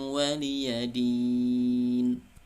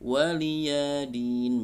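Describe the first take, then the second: First: The vowel after the y is short. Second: The vowel after the y is lengthened. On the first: The speaker calls it right. "ini tidak ada mat di sini" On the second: The speaker calls it wrong. "Karena kalau memanjangkan huruf, misalnya waliyadin"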